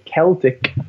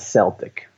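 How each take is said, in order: First: The word begins with a hard K sound. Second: The word begins with a soft S sound. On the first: It refers to the ancient culture and its languages. The speaker calls it right. "you pronounce it with a hard C, right? A K sound" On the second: It follows ordinary English spelling rules, as in sports team names. The speaker calls it wrong. "rather than Celtic"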